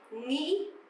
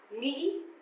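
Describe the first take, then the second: First: It is said sharply, northern Vietnamese style. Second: It is said sharply, northern Vietnamese style.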